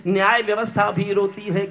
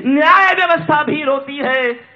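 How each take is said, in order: First: Said in the usual way. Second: High, loud poetic lament; raised, ringing recitation; impassioned verse. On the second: Acted. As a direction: cry the line out to the hall. Same line belted, then repeated steadily.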